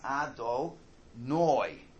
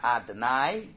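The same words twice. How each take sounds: First: The last syllable is said like 'noy'. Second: The last syllable is said like 'nigh'. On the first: It means my master. The speaker calls it right. "the word should be pronounced Adonai" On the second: It means my masters. The speaker calls it wrong. "Not Adonai, like I deny"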